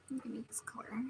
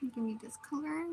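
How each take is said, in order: First: "Give me this color" whispered, no voice; whispering. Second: Said in the usual way. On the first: Real, not acted. Repeats phrase, whispered.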